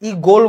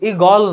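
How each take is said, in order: First: The second vowel is a closed 'o' sound. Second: The second vowel is an open 'aw' sound. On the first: The speaker calls it right. "ই গোল বলতেছি" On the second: The speaker calls it wrong. "ই গল না"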